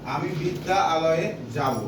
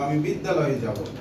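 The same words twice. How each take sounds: First: The two words are said slowly and apart. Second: The two words are said quickly and merged. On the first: "আমি যদি বলি যে" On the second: "আমি দ্রুত বলতে গেলে কি বলবো?"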